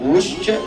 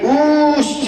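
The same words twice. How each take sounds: First: The vowel is held very briefly. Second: The vowel is drawn out extra long. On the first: "ये ह्रस्व है" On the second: "ये प्लुत है"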